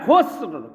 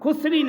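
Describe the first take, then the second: First: The word ends on the final consonant. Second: The word ends with an added 'i' vowel. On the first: The speaker calls it right. "হ্যাঁ, খুসর" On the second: The speaker calls it wrong. "খুসরি না"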